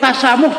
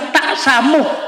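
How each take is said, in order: First: The first syllable flows smoothly into the next. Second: A stop sound follows the first syllable. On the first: The speaker calls it right. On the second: The speaker calls it wrong. "masih salah diucapkan"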